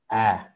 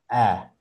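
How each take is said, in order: Both takes have the same delivery.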